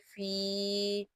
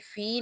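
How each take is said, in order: First: The vowel is drawn out for two counts. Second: The vowel is cut short and said quickly. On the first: The speaker calls it right. "एक अलिफ यानी दो हरकत की मिकदार खींचते हुए" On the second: The speaker calls it wrong. "जल्दी से नहीं पढ़ जाना, यानी फी नहीं पढ़ेंगे"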